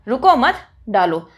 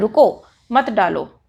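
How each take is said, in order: First: There is a pause right after 'mat'. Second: There is a pause right after 'ruko'.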